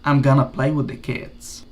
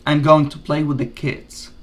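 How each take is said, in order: First: The words 'going to' are reduced to 'gonna'. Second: The words 'going to' are said in full. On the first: The speaker calls it right. "Use slang in your language" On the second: The speaker calls it wrong. "instead of saying"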